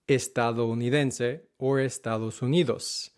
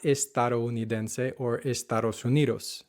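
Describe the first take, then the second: First: Estadounidense with a soft d like "th"; the Spanish soft d; correct soft d. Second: Estadounidense with the d's flapped; American accent on the d; hard English d's. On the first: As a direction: Estados Unidos, d's gently softened. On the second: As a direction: Estados Unidos, English d sound. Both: Shown as a demonstration.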